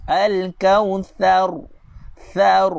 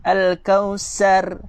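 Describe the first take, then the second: First: Al-Kautsar slowly, tongue out for th; correct tha. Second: Al-kausar with a plain hissed s; al-kausar drawn slowly, s instead of th; wrong sin sound. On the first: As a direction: Thar pushed out with a strong th. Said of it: "Itulah baru betul huruf tha". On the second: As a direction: demo of the mistake, s for tha. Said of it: "Dia baca dengan huruf sin". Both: Shown as a demonstration.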